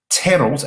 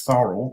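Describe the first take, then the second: First: The name begins with a hard T sound. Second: The name begins with a soft TH sound. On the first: This is how German speakers say the name. "it's T H, so it's T" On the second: This is how English speakers say the name. "the English version is Thorold"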